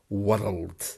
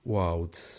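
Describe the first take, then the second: First: The R is pronounced strongly and hard. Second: The R almost completely vanishes. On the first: "a very stressful, or it sounds quite stressful the way she said it" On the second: "in received pronunciation, it would be wowed, ... that R vanishing almost completely"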